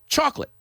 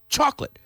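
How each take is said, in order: The two takes are said the same way.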